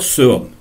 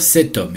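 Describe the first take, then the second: First: The determiner ends in a vowel, no t sound. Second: A t sound links the determiner to homme. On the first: The speaker calls it wrong. "je ne peux pas dire ce homme" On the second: The speaker calls it right. "Donc je vais dire cet homme"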